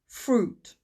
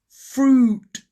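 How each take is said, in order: First: The vowel has a natural, everyday length. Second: The vowel is drawn out in an exaggerated way. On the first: "More naturally" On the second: "Two dots means it's a long sound, so it's ooh"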